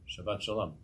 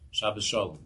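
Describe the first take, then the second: First: The first word ends with a t sound. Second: The first word ends with an s sound. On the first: This is the form other communities use. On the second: "they say Shabbos"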